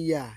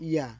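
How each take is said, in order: The two takes are said the same way.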